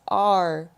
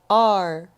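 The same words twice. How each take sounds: First: It is said with one syllable, like 'are'. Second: It is said with one syllable, like 'are'.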